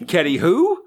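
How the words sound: The voice rises at the end, like a question.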